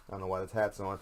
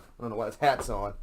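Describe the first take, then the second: First: Said in the usual way. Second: Louder put-on complaining voice; mock exasperation. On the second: Host griping about his hat, louder mock complaint. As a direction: repeat it as a hammed-up gripe.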